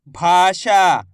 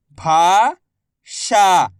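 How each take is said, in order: First: Said in the usual way. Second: Very slow, each syllable drawn out. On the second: Shown as a demonstration. Teacher sounding out a word for pupils, slow syllables. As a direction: spell the word out slowly for a child. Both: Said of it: "मैं किस तरीके से".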